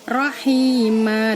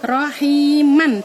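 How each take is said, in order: First: The word ends with a lengthened vowel, no n. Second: The word ends with a short vowel plus n. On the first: The speaker calls it right. "mannya tadi dipanjangkan menjadi rohima, dua harokat" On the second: The speaker calls it wrong. "nggak boleh dibaca rohiman"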